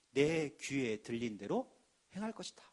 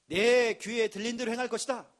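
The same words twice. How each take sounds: First: Low, slow, grave divine voice; solemn voice of God. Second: Loud ringing proclamation; proclaimed loudly. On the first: Preacher voicing God to the congregation, low and solemn. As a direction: intone God's words deep and slow. Quoting God's word solemnly. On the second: Preacher thundering God's verse at the congregation, loud. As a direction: declare it out to the hall. Repeats God's word forcefully. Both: Acted.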